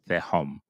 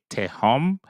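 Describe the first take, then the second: First: The word begins with a soft th sound. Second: The word begins with a hard t sound. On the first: "It's more T H sound" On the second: "they would pronounce the T sound, the hard sound for the tau"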